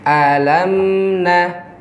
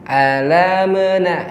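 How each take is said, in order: First: The m is held briefly and flows smoothly on. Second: The m is given a bouncing, echoing release. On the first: The speaker calls it right. "ditawasudkan, berjalan sedikit" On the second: The speaker calls it wrong. "ini tidak dibenarkan karena mim bukan sifatnya qalqalah"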